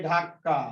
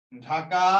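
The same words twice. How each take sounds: First: ধাক্কা with a long, doubled k; emphatic double k in the middle of ধাক্কা; doubled consonant. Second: Said in the usual way. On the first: Shown as a demonstration. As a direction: hold the k in ধাক্কা before releasing: dhak-ka. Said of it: "শব্দকে জোর দিয়ে উচ্চারণ করার জন্য". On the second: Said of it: "ঢাকা থেকে ধাক্কা".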